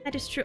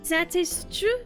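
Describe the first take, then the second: First: It is said without a French accent. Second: It is said with a French accent.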